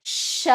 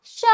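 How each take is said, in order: First: श with a long sh hiss; forceful श. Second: श as a short syllable; quick श. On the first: Teacher repeating the forceful श, long sh. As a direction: lean on the sh of श before the vowel. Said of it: "इसको थोड़ा जोर दे के बोलना है". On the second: Teacher repeating the quick श, short sound. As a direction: release श quickly, with a brief sh. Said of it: "और इसको जल्दी". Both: Shown as a demonstration.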